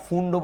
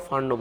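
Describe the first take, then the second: First: ফুন্ডও said as "foond-o", u vowel; said as Fund with u. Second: ফান্ডও said as "fand-o", open a vowel. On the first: Teacher offering students the first way to say the name, ফুন্ডও with u. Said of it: "ফুন্ডও বলতে পারো". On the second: Teacher offering students the second way to say the name, ফান্ডও with a. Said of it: "ফান্ডও বলতে পারো". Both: Shown as a demonstration.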